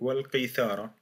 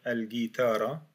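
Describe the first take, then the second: First: It begins with a q and th sound. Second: It begins with a hard g sound. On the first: "le mieux c'est de la prononcer al-qithara" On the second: "ça va devenir al-guitara"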